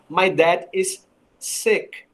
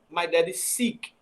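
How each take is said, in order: First: The vowel in sick is short, between e and i. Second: The vowel in sick is a long ee sound. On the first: The father is ill. The speaker calls it right. "aqui eu pronuncio como sick" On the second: It sounds like the verb meaning to search. The speaker calls it wrong. "E não"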